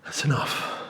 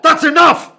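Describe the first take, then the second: First: Drained whispered afterthought; whispered echo. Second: High, loud desperate scream; frantic screamed plea; panicked scream. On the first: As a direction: breathe it out, spent and hollow. Echoing his own plea. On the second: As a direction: scream it at full force. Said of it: "And I'm going". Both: Retold or imitated.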